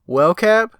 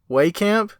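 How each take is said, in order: First: The name is said as Wellcap. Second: The name is said as Waycamp. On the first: This is how the name was said before. The speaker calls it wrong. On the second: This is how the name owner says it. The speaker calls it right.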